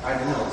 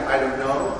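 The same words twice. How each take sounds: First: "I don't know" with "know" dropping flat and final; falling "I don't know". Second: "I don't know" with "know" rising like a question. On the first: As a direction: let "know" fall at the end. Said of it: "or you went like". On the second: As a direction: let "know" lift up at the end. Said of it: "either you went". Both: Shown as a demonstration.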